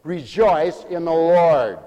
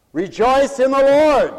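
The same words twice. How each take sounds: First: Slow, deliberate statement; slow emphasis. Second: High, loud, slow command; preached shout. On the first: Preacher explaining discriminate joy, slow emphasis. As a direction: say it slowly, weighing each word. First, restrained take of the command. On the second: Preacher driving the command home, preached shout. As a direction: shout it out, stretching the last word. Repeats the command at full force. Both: Real, not acted.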